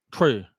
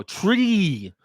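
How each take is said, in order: First: "Tree" said short, like "troo"; slack, lower imitation of "Tree" with a lax vowel; accented mispronunciation. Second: "tree" with a long, clear ee, pitched higher; correct articulated TREE. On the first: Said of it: "They say tree". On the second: Shown as a demonstration. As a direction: stretch the ee in "tree" using the mouth muscles. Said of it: "You gotta use your mouth muscles".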